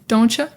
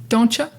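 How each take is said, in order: The two takes are said the same way.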